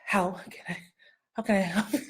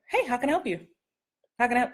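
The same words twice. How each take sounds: First: Softer, heavy, over-weighted read; mock deep. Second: A friendly clerk greeting a customer; casual friendly. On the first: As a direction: lean on it like it's your big scene. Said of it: "They wouldn't be like". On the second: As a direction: toss it off like a store clerk. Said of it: "they would say". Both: Shown as a demonstration.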